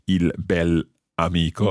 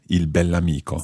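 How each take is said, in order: First: Bel and amico are said as separate words. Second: Bell and amico run together as one word. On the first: The speaker calls it wrong. "we don't say il bel amico" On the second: The speaker calls it right. "It all runs together"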